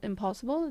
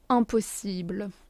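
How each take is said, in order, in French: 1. Le mot se prononce avec des sons anglais. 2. Le mot se prononce avec des sons français. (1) "which means impossible" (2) "It's pronounced the French way"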